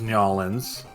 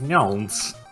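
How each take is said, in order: First: The name is squeezed down to two syllables. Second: The name is condensed as far as possible. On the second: "I've simply condensed condensed it as far as it can go"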